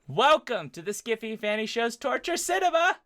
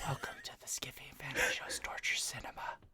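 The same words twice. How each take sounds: First: It is said loudly. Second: It is said quietly.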